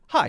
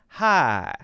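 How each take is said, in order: First: It is said short, in a plain Northeastern accent. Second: It is drawn out, in a Southern drawl. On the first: "instead of hi" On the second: "it would be hi"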